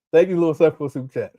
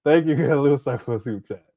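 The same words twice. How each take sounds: First: Said in the usual way. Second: Thanks broken by a laugh. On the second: Real, not acted. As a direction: thank him while cracking up. Thanking viewer while laughing.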